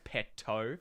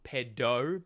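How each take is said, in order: First: "petto" said slowly with a crisp T. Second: "pedo" said slowly with a clear D. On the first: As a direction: sound the T in "petto", as in petrol. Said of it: "but petto for petrol". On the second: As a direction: draw out "pedo", voicing a D in the middle. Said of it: "like, not pedo". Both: Shown as a demonstration.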